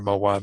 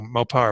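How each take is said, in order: First: The second syllable starts with a W sound. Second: The second syllable starts with a P sound. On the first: "sometimes turns into a W sound after some syllables" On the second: "I think it's the pa"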